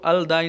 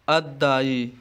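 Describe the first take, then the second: First: The l is pronounced before a single d. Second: The l is silent and the d is doubled. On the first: The speaker calls it wrong. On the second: The speaker calls it right.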